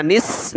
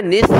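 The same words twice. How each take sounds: First: निस ending in a plain hissed s; wrong seen sound. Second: Lisped th closing निस; correct saa sound. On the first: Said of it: "यहाँ भी आपने सीन नहीं पढ़ना". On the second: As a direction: finish निस on th as in "think". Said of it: "क्या पढ़ना है". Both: Shown as a demonstration.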